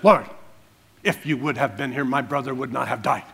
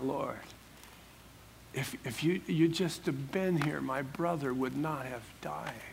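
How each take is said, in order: First: It sounds stern, rebuking and upset. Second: It sounds tearful and heartbroken, with hesitations.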